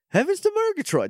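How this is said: The voice is theatrical and highly exaggerated. "okay, do Snagglepuss"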